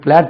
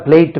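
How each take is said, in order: First: The vowel sounds like the one in 'cat'. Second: The vowel sounds like the one in 'late'. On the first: The speaker calls it right. "அது பிளாட் மாத்திராதீங்க" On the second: The speaker calls it wrong. "உச்சரிப்பு பார்த்தா பிளேட் மாதிரி இருக்கு"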